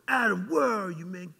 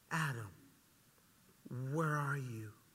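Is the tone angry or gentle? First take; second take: angry; gentle. First: It is said in a mean, angry tone. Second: It is said in a gentle, warm tone.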